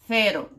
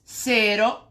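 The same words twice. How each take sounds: First: It begins with a 'th' sound, tongue between teeth. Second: It begins with a hissing 's' sound. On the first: "a língua entre os dentes" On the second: "com o fonema, o fonema dos dois S's"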